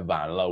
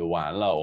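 First: The word begins with a V sound. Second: The word begins with a W sound.

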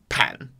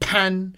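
First: It is said in the third tone. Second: It is said in the first tone. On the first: "Bedroom or living room is third tone" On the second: "Outside the entrance is first tone"

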